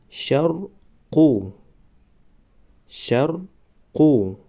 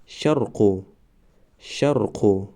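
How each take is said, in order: First: شرقو stretched very slowly, syllable by syllable; drawn-out demo. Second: Said in the usual way. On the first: Shown as a demonstration. Teacher modelling the word for students, very slow. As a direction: draw out شرقو slowly for the class. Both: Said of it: "ما باید همان حرف را فقط آوازش را تلفظ کنیم".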